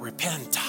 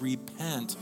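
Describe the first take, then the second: First: The word is said in a harsh, threatening way. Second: The word is said in a gentle, inviting way. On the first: It sounds like a frightening threat. The speaker calls it wrong. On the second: It is an invitation to change your mind. The speaker calls it right.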